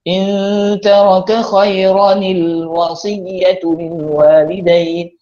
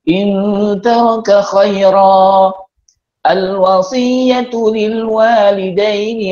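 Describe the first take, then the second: First: Khaira runs into the next word with a linking nil. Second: Khaira ends, then the next word starts separately. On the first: "bila kita wasalkan" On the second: "untuk ambil jalan selamat"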